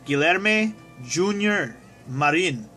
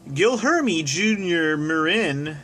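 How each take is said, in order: First: The name is said in a native-style attempt. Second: The name is said with flat English pronunciation. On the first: "I'm gonna try my darndest"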